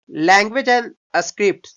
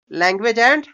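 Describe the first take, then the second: First: "Language and scripts" stretched word by word, very slow; very slow dictation of "Language and scripts"; slow read-aloud. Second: Said in the usual way. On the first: Shown as a demonstration. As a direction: drag out "Language and scripts" for students to copy.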